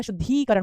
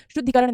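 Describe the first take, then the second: First: शुद्धिकरण with a stretched "dhee"; शुद्धिकरण, middle i held long; correct long ee. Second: शुद्धिकरण with a short "dhi"; शुद्धिकरण, middle i cut short; wrong short i. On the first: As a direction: say शुद्धिकरण as "shuddhee-karan". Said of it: "बड़ी ई की मात्रा". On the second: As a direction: say शुद्धिकरण as "shuddhi-karan". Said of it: "शुद्धिकरण नहीं होता". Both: Shown as a demonstration.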